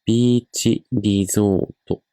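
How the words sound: It is pronounced with Japanese sounds. "But in Japanese, we have this one. We say ビーチリゾート"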